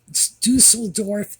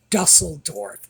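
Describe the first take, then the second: First: The name is said with German-style sounds. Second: The name is said with English-style sounds. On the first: The speaker calls it right. "No, get the pronunciation from a German speaker" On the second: The speaker calls it wrong. "a lot of people are pronouncing that"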